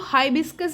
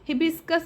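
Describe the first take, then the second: First: The first syllable has an 'eye' sound. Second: The first syllable has a short 'i' sound. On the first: "कुछ जगह इसको हाइबिस्कस भी बोलते हैं" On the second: "English में हिबिस्कस बोलते हैं"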